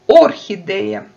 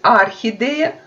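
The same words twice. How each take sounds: First: The first vowel sounds like "o". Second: The first vowel sounds like "a". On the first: This is the Kazakh way of saying it. "в казахском языке мы обязательно должны даже безударную О проговаривать как О" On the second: This is the Russian way of saying it. "в русском языке можем говорить букву О безударную как А"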